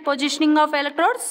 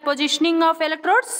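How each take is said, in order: Both takes have the same delivery.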